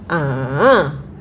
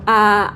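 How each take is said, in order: First: The pitch dips down then rises again. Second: The pitch stays high and level. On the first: "turun ke bawah, naik ke atas" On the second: "kita mulai dari nada sol"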